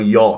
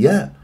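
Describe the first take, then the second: First: The syllable sounds heavy and dark. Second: The syllable sounds light and thin. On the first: The speaker calls it wrong. "ما تفخم لي الياء" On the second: The speaker calls it right. "يا مرقق"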